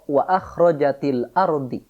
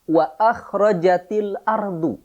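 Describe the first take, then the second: First: The last word ends in another vowel. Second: The last word ends in a u vowel. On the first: The speaker calls it wrong. "Tidak boleh kemudian kita membaca" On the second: The speaker calls it right. "Ciri marfu yang paling utama adalah dhammah. Sehingga dibaca"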